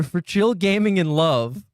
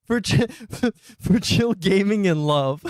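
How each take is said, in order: First: Said in the usual way. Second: Giggling through the title, a bit slower; can't get the words out for laughing. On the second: Real, not acted. Streamer rereads the silly title while laughing.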